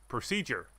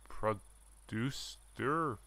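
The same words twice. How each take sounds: First: "Procedure!" said with relief; correcting to "Procedure!" at last; right word found. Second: Producer, slow and unsure; drawn out "producer?" as a puzzled guess; trying the wrong word "producer?". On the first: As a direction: land on "Procedure!" triumphantly. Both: Shown as a demonstration.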